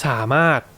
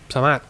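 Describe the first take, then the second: First: The first syllable is long with a clear tone. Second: The first syllable is short with no set tone. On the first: This is the careful, proper way of speaking. "that's correct Thai if you want to be slow and proper about it" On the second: This fits quicker, faster speech. "if you want to be a bit more quicker, um, you can just say"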